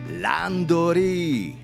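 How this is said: It is said with a Japanese accent. The speaker calls it right. "more like in Japanese English, the one we call Japanglish way"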